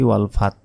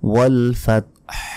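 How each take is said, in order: First: The word ends with no h sound. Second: The word ends with a faint breathy h. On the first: The speaker calls it wrong. "এটা সম্পূর্ণ ভুল" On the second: The speaker calls it right. "শেষে হার একটি আওয়াজ আসবে"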